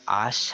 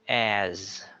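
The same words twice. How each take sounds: First: The vowel is said in a Filipino way. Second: The vowel is a short A between ah and eh. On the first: The speaker calls it wrong. "It's not as, has, or at, like the way we Filipinos pronounce it" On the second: The speaker calls it right. "It's sounded as as"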